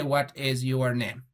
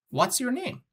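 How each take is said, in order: First: "What is your name?" said word by word, low and level; no intonation. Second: "What's your name?" lifted high, run together as a natural question; natural intonation. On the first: Teacher showing students how not to ask, no intonation. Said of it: "it doesn't have intonation". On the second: Teacher showing how one may ask naturally, natural rising intonation. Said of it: "when you speak naturally". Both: Shown as a demonstration.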